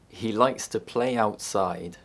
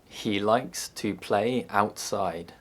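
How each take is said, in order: First: A y sound links 'play' to 'outside'. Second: The words are said separately without a y sound.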